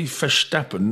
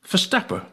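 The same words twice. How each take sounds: First: The final n is clearly sounded. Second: The final n is dropped. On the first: This is how outsiders say it. "they don't say Verstappen" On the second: This is how locals say it. "they say Verstappen"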